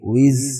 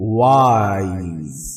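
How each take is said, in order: First: The vowel is a short 'ih' sound. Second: The vowel is a long 'eye' glide. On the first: The speaker calls it wrong. "विज नहीं बोलेंगे" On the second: The speaker calls it right. "बन जाता है वाइज"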